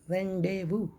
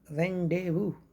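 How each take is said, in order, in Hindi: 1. z और s की ध्वनियाँ मौन रहती हैं। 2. z और s की ध्वनियाँ मौन रहती हैं।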